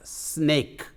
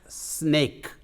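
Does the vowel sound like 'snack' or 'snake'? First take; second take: snake; snake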